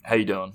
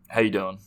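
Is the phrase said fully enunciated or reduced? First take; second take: reduced; reduced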